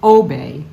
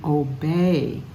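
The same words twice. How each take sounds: First: The stress is on the first syllable. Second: The stress is on the second syllable. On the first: The speaker calls it wrong. "We don't obey" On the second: The speaker calls it right. "obey has emphasis on the second syllable"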